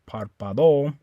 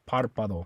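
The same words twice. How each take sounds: First: The stress is on the last syllable. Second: The stress is on the first syllable. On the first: The speaker calls it wrong. "You don't stress the O. You don't say párpado" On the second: The speaker calls it right. "I'm going to put the stress right here on that A because that's where the accent mark is"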